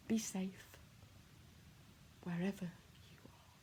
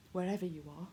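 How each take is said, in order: First: Soft breathy whisper, barely voiced. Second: Said in the usual way. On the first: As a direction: let it fade to a whisper. Repeated line, whispered farewell.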